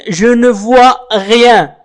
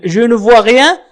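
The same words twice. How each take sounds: First: "je ne vois rien" spoken very slowly, word by word; slow demo. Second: Said in the usual way. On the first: Shown as a demonstration. Teacher to learners, modelling the phrase very slowly. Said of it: "teacher models French phrase". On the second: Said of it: "teacher repeats phrase normally".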